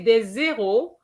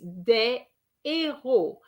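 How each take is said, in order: First: A z sound links the two words. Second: No z sound links the two words. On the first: It means zeros. The speaker calls it wrong. "If you say des zéros, I understand number zeros" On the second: It means heroes. The speaker calls it right. "heroes is des héros"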